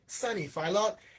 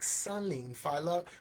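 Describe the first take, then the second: First: The first word sounds like 'sunny'. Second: The first word sounds like 'sun-nin'. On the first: The speaker calls it wrong. "I say it like sunny, like a sunny day, but it's pronounced wrong" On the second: The speaker calls it right. "it's more like Sunlin Fai Lok"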